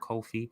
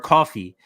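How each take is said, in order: First: The name is not said like coffee. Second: The name is said like coffee. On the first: The speaker calls it wrong. "we've been pronouncing it wrong this whole time" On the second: The speaker calls it right. "You just say it just like coffee"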